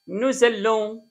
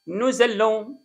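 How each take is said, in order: First: The two words are linked with a z sound. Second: The same.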